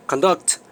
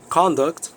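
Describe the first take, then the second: First: "Conduct" with a strong second syllable, con-DUCT; verb stress. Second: "Conduct" with a strong first syllable, CON-duct; noun stress. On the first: Teacher defining the verb meaning to lead, "Conduct" stressed on DUCT. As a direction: hit DUCT in "Conduct", first syllable reduced. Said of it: "the verb". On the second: Teacher defining the noun meaning behavior, "Conduct" stressed on CON. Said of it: "the noun". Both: Shown as a demonstration.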